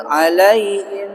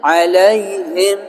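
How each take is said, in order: First: Slow "Alaihim" as alai-im; wrong, h dropped. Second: Slow "alaihim" with a clear breathed h, alai-HIM; correct big H. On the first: Teacher pointing out the wrong reading, h dropped. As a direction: say "Alaihim" with no h before -im. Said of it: "bacanya salah tuh kalau begitu". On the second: Teacher correcting the reading, full clear h. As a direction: push out the h in "alaihim". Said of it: "Harusnya alaihim". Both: Shown as a demonstration.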